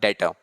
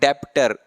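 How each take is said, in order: First: No b sound is pronounced before the t. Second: A b-like sound is pronounced before the t. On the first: The speaker calls it right. "बी इसमें silent रहेगा आपका" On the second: The speaker calls it wrong. "इसको बच्चे पढ़ते हैं डेप्टर"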